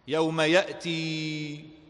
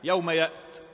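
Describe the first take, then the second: First: The word ends with a drawn-out long vowel. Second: The word ends abruptly without a final long vowel. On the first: "وإذا أثبتت فيها الحرف طال زمنها" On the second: "عندما حذفت هذا الحرف من الكلمة نطقت بسرعة"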